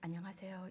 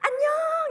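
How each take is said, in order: First: It is said in a lower, ordinary pitch. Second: It is said in a high, bright pitch.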